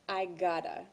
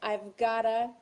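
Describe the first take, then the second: First: No v sound is heard before gotta. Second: A v sound is heard before gotta.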